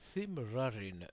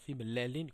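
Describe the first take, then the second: First: The L sounds are pronounced like an English R. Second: The L sounds are pronounced as a plain L. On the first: This is how it is said in certain regions. "le L est prononcé comme, presque comme le R anglais" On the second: This is how most people say it. "comme on le dit euh, la plupart"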